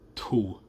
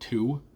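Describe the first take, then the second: First: The word is said with a breathy release. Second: The word is said plainly, without breathiness. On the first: "you almost want a bit of a breathiness to the two" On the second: "a more standard American two"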